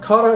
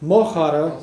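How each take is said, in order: First: The word begins with a hard K sound. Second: The word begins with a breathy CH sound. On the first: "kara is friend" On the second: "because it mo aspirates"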